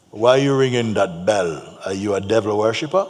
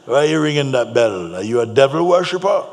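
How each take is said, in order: First: Lightly voiced crusty challenger, louder; crusty Jamaican man. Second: Loud, higher-pitched crusty accusation; crusty Jamaican man. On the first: Jamaican man challenges the incense seller about his bell, crusty. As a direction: confront him like a crusty big Jamaican man. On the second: Retold or imitated. Jamaican man accuses the incense seller of devil worship, loud and crusty. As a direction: throw the challenge out loud, climbing in pitch. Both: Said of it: "very crusty voice".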